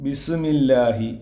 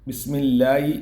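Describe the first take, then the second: First: ബിസ്മില്ലാഹി with the sukoon on ബിസ് pulled apart; ബിസ്മില്ലാഹി said slowly, stopping hard on ബിസ്; over enunciating. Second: Said in the usual way. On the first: Shown as a demonstration. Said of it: "സുക്കൂനെ വെളിവാക്കിയിട്ട്". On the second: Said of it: "ബിസ്മില്ലാഹി ഓതുന്നവരുണ്ട്".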